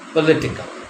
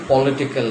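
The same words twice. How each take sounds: First: The first syllable is reduced to per. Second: The first syllable has a full vowel. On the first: The speaker calls it right. "it suddenly becomes per, political" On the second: The speaker calls it wrong. "It will not be political here"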